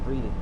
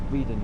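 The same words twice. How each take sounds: First: The first vowel sounds like 'eh'. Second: The first vowel sounds like 'ee'. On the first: The speaker calls it right. "We pronounce it eh, not e" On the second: The speaker calls it wrong. "not Reading, you idiot"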